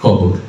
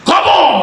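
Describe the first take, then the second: First: It is recited smoothly and expressively. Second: It is recited loudly like a fiery speech. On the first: A skilled reciter performs the poem well. The speaker calls it right. "অনেক সুন্দর করে আবৃত্তি করছে" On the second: A politician used to stage speeches recites it. The speaker calls it wrong. "রাজনীতির মঞ্চে গরম বক্তব্য দিয়ে অভ্যাস"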